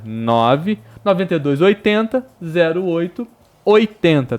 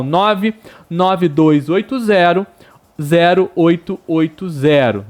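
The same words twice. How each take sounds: First: Noventa e dois read as paired numbers; grouped numbers. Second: Each digit spelled out slowly. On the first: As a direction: say oitenta as one grouped number. (números agrupados em pares) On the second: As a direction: nove nove dois read digit by digit, slow. (ditando dígito por dígito, devagar) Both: Shown as a demonstration. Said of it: "Vou repetir".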